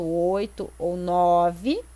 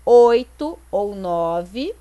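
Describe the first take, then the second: First: Slow, even counting, stress on "nove"; teacher rechecking "oito ou nove" line by line; slow counted out. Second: Slow and louder, each count laid out; teacher pointing out "oito ou nove" on the board; slow counted emphasis. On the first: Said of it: "Então, aqui, ó". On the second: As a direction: spell out "oito ou nove" slowly and loudly, leaning on "oito". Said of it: "a quantidade de sílabas gramaticais". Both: Shown as a demonstration.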